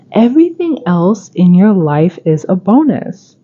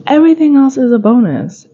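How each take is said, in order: First: Said in the usual way. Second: "Everything" pitched high and leaned on; emphatic repeat. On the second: Shown as a demonstration. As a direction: hit "Everything" high, then let the rest fall.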